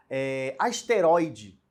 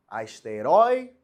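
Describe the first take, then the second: First: Asteroide drawn out slowly, syllable by syllable; slow word demo. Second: Asteroide repeated slow and loud, stress on the roi; loud word demo. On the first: Teacher reading asteroide slowly to the class. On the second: Teacher repeating Asteroide loud and slow for students. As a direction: call out Asteroide slowly and firmly. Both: Shown as a demonstration. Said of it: "era uma paroxítona".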